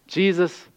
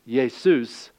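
First: Said in the usual way. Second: Jesus said as yay-SOOS; Greek pronunciation. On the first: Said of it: "It's just pronounced differently". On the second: Shown as a demonstration. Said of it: "say it in the Greek dialect".

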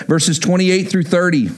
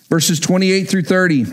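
No difference in how they are said.

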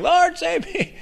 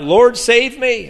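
First: Very high, squeezed squeal; mock drowning cry. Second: High, slow, drawn-out cry. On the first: Someone drowning prays for rescue, very high mock-panicked squeal. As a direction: squeak it out like someone going under. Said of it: "if you're ever drowning". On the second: Acted. Peter sinking, calls to Jesus, high drawn-out cry. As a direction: call out for rescue, stretching the words. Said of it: "he cried out".

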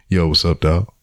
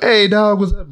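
First: Low, subdued imitation of a cool hello; unenthusiastic greeting. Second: High-pitched, hearty hello to a buddy; usual friendly greeting. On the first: Brother greeting him differently this time, subdued. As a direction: greet him with none of the usual enthusiasm. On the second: Retold or imitated. Brother greeting him on the couch as usual, upbeat. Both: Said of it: "he wasn't like that this time".

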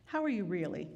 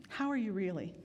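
The two takes are said the same way.

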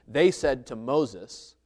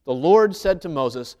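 First: Slow, with "they" leaned on hard; slow reading that hits "they"; stress on they. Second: Slow and loud, "Lord" punched; loud, deliberate reading that leans on "Lord"; stress on Lord. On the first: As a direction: draw out "They said to Moses", landing on "they". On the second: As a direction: hit "Lord" in "The Lord said to Moses" and read it slowly. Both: Acted. Stressing who spoke in the verse.

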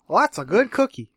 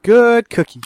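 First: Said in the usual way. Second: High, loud good-dog praise; praising a pet. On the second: Pretend. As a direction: praise it like a puppy. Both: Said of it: "That's my catchphrase now".

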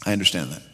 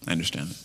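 First: Said in the usual way. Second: Soft, hushed repeat. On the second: Shown as a demonstration. Preacher repeats, softening.

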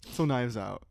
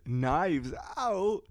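First: Said in the usual way. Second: Slower, punchier, emphatic delivery; more energetic. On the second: Shown as a demonstration. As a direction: sell the title with extra energy. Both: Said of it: "for those of you who think I lack energy".

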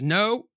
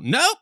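First: A half-hearted anguished no; a weak first try at a despairing no; mild cry of no. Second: A high, loud scream of no; anguished scream. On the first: Husband hearing the news, a mild anguished no. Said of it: "That was awful". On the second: Husband seeing his deformed baby, screaming no. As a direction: wail it out in horror. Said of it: "Is that better?". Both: Acted.

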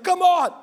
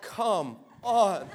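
First: High, loud burst of protest; mock outraged shout; exasperated yell. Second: Drawn-out, deflated groan of disbelief; unimpressed, dragged-out plea; weary exasperation. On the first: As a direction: yell it out, fed up and disgusted. Retold exasperation at demon spit. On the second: Retold or imitated. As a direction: imitate being fed up, slow and low-key. Retold weary reaction to demon.

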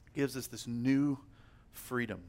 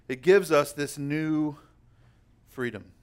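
First: Much softer repeat, falling away on freedom; softer echo. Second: Slowed, leaning hard on gives; emphatic line. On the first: Preacher to the congregation, echoing the line gently. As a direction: let it land softly the second time. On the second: Preacher to the congregation, proclaiming the gift emphatically. Repeating the key line twice. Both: Acted.

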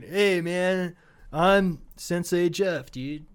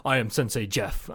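First: Slow, drawn-out stoner voice; stoner sensei. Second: Self-styled sensei. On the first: Acted. Stoner comedy sensei greeting his class, slow and dopey. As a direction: introduce yourself like a laid-back stoner, dragging it out. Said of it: "a two thousand stoner comedy". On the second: Pretend. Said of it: "have a class and be like".

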